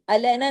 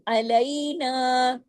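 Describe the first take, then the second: First: The middle vowel is a plain vowel. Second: The middle vowel is a soft ai diphthong. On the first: The speaker calls it wrong. "नहीं" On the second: The speaker calls it right. "या लीन है ना"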